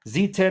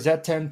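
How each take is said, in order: First: The letter Z is said as 'zee'. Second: The letter Z is said as 'zed'.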